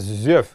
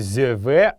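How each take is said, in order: First: The word ends on a consonant sound. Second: The word ends with an extra vowel sound. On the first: The speaker calls it right. "а «зёв». Именно «зёв» — это норма" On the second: The speaker calls it wrong. "Правильно его произносить не «зёве»"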